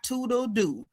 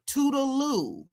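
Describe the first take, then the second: First: Toodle doo ending in a D sound, doo; mistaken toodle doo. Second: Toodaloo with a clear L in the last syllable, loo; correct toodaloo. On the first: Host showing the castmate's mistake, toodle doo ending in doo. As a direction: say toodle doo with doo in place of loo. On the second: Host correcting the castmate's phrase, toodaloo ending in loo. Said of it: "the phrase is". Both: Shown as a demonstration.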